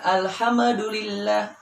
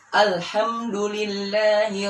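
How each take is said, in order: First: The M before d gets a bouncing echo. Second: The M before d is held smoothly. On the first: The speaker calls it wrong. "terkadang dibacanya kolkolah" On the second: The speaker calls it right. "Yang benar adalah"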